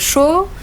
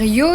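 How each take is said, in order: First: The word begins with a sh sound. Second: The word begins with a y sound. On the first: "ils vont te dire euh, chaud" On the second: "ils vont pas te dire yo"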